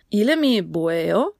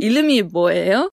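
First: "Ilemi boeo?" spoken very slowly, syllable by syllable, rising at the end; slow Korean demo question. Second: "Ilemi boeo?" asked a bit louder at a slow teaching pace, rising; asking Lisa. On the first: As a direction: spell out "Ilemi boeo?" slowly for learners and lift the last word. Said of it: "frage ich sie, was ihr Name ist". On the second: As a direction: put the question "Ilemi boeo?" to Lisa clearly. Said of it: "Da, Lisa". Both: Shown as a demonstration.

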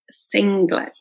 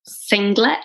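First: Said in the usual way. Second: "singlet" with the G sounded clearly; "singlet" with a pronounced G, rising; hard G. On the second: Shown as a demonstration. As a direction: sound the G in "singlet" like the Manchester kids. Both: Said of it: "they really pronounce their G's".

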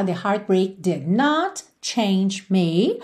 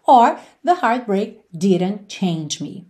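First: "did not" said slowly as two separate words, not stressed; slow, did not split. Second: "didn't" as one word, said slowly; slow contracted form. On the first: Teacher showing the long negative form, very slow. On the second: Teacher showing the short negative form, slowly. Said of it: "E também poderia ser separado". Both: Shown as a demonstration.

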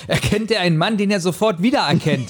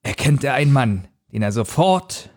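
First: Rereading the clumsy sentence through laughter; laughing. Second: Said in the usual way. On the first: Real, not acted. Rereading a clumsy book sentence to the co-host, laughing. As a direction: giggle through the words. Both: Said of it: "Wie findest du diesen Satz?".

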